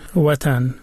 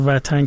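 First: The word begins with a rounded w sound. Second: The word begins with a v sound. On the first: This is the older form kept in Dari and Tajik. "اونا و نمی گن، بیشتر جا مثلا می گن وطن" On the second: This is the changed form used in Iran. "وطن که ما میگیم این ایرانی شده است"

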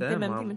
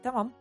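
First: The second vowel is a fronted 'e' sound. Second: The second vowel is an open 'a' sound. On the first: The speaker calls it wrong. "не тэмэм" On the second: The speaker calls it right. "Ты будто бы два А произносишь"

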